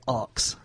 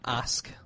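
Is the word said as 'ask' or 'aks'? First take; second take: aks; ask. First: The k sound comes before the s. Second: The s sound comes before the k. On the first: "some people in London say ox" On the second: "you know the word um"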